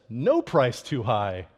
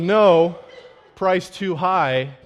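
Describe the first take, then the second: First: It is said with no pause after "no". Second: There is a pause after "no".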